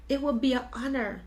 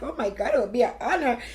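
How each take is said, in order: First: Said in the usual way. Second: Touched, crying. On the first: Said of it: "She's like". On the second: Retold or imitated. Teller recalling her friend's offer, voice tearful and moved. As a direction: relive being moved to tears. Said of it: "So I started crying".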